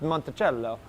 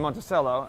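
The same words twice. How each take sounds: First: It is said with an Italian-style pronunciation. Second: It is said with the local pronunciation. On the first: The speaker calls it wrong. "It's not Monticello. ... that's my bad Italian accent" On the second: The speaker calls it right. "it's actually Monticello"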